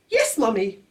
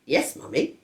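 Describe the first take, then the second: First: High, lightly voiced baby; baby repeating yes mummy. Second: Said in the usual way. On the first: A narrator's reading. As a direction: chirp it like a tiny baby. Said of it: "then he said". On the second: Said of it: "George repeated it".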